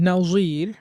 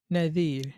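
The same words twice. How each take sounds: First: নাজির with a clear buzzing z. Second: নাজির with a soft, tongue-tip ð like "this"; soft th sound. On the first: Teacher showing students the buzzing z, clear z. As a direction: say নাজির with a sharp z. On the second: Teacher contrasting the dhal sound, soft ð. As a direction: say নাজির as naðir, quietly. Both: Shown as a demonstration. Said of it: "জ এবং দাল".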